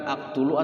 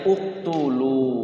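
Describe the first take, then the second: First: The word begins with an a vowel. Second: The word begins with a u vowel. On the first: The speaker calls it wrong. "bukan aktulu" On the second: The speaker calls it right. "Berarti bacanya uktulu"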